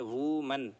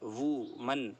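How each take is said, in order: The two takes are said the same way.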